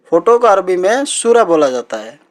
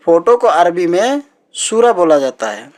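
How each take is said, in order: Both takes have the same delivery.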